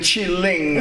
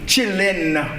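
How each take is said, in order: First: The word ends with a full 'ing' sound. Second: The word ends with a plain 'in' sound. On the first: The speaker calls it wrong. "au lieu de chilling" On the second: The speaker calls it right. "c'est comme ça que tu dois dire oh, chillin"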